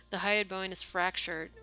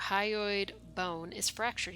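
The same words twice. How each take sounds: First: Said in the usual way. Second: Said slowly, taking his time; slow, after a pause. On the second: Acted. The lieutenant finally reporting the fracture, slowly. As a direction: let it come out after a long think. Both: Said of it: "he says after a while".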